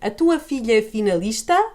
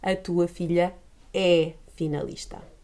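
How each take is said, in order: First: The voice rises at the end like a question. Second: The voice falls at the end like a statement.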